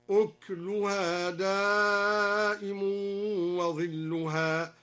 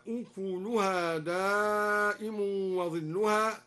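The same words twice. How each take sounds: First: Slow chanted recitation, أكلها said ukluha; أكلها with sukun on the ك, two syllables; kaf silent. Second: Slow chanted recitation, أكلها said ukuluha; أكلها with a damma on the ك; kaf voweled. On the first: Teacher demonstrates al-Duri's silent kaf. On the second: Teacher recites the common reading with voweled kaf. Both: Shown as a demonstration. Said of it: "هكذا".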